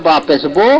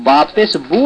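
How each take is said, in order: First: বো with a long o in place of u; majhul vowel. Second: বু with a long, pure u; maruf vowel. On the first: Teacher contrasting right with wrong recitation, majhul vowel. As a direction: let বু slacken into বো. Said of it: "তাহলে মজহুল". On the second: Teacher contrasting right with wrong recitation, maruf vowel. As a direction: hold a clean u on বু. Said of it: "তাহলে মারুফ". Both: Shown as a demonstration.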